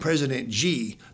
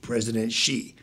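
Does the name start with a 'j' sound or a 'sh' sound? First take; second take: j; sh. First: The name starts with a 'j' sound. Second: The name starts with a 'sh' sound. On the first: The speaker calls it wrong. "they call him G, like Gee Whiz" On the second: The speaker calls it right. "like S-H-E-E"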